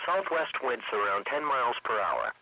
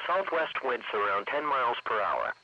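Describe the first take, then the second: No difference in how they are said.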